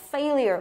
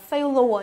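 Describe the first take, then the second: First: "failure" as FAY-lee-er; correct failure. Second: "failure" misread as FAY-lo-uh; wrong failure. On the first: Teacher giving students the correct reading, lyer ending. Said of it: "Mà đọc là failure". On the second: Teacher warning students off a misreading, wrong ending. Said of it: "Từ này không đọc là failure". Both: Shown as a demonstration.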